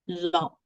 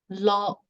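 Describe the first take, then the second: First: The pitch falls from high to low. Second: The pitch stays level and even. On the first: It means hand. "the falling tone" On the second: It means tiger. "the first word is lo"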